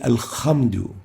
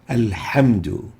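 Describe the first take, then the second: First: It has a rasping kh from the upper throat. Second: It has a tight h from the mid-throat. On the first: The speaker calls it wrong. "exchanging the ha with the kha" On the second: The speaker calls it right. "The proper way to pronounce those is with the ha"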